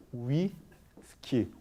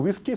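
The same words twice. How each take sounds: First: Whisky slow, back of tongue touching the velar zone; correct whisky. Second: Whisky with a Korean wi, tongue not touching the back; the faulty whisky to avoid; wrong Korean-style whisky. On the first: Teacher modelling the correct whisky slowly. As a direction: draw out the right whisky slowly. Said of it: "sino como whisky". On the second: Teacher showing the students' mistaken whisky. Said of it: "no como whisky". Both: Shown as a demonstration.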